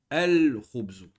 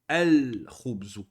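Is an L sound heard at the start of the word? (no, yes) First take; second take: yes; yes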